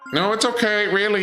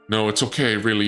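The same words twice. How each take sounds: First: It is said in a put-on cat voice. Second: It is said in the speaker's normal voice.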